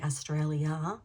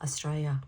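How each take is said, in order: First: The L sound is clearly pronounced. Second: The L sound is left out. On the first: "We don't say Australia" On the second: "We drop the L"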